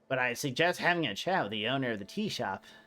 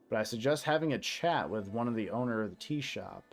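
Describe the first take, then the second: First: It is said in a put-on character voice. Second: It is said in the speaker's ordinary voice.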